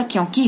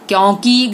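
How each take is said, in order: First: Said in the usual way. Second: क्योंकि with long final "kee"; mispronounced vowel. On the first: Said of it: "क्योंकि होता है". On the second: Shown as a demonstration. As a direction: stretch the end of क्योंकि. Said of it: "क्योंकि नहीं होता".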